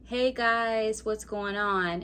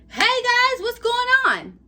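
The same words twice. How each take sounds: First: It is said flatly, with little energy. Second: It is said with lively, enthusiastic energy.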